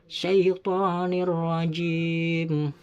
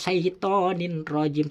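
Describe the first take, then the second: First: The n merges into a doubled r sound. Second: A clear n sound comes before the r. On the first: The speaker calls it right. "tanwinnya harus memasuk kepada huruf ro, seakan-akan ro itu bertasdid" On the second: The speaker calls it wrong. "tidak boleh syaitonin rajim"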